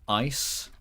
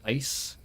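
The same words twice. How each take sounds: First: The vowel in ice has an American sound. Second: The vowel in ice has a non-American sound. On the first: "I think it's slightly American to pronounce it uh" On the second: "instead of ice"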